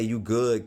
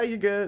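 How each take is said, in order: First: It is said curtly, without cheer. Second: It is said in a cheery way.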